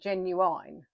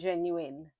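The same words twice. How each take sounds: First: The word is said in a Birmingham accent. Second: The word is said in a standard accent. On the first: "Is that a Birmingham thing" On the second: "rather than"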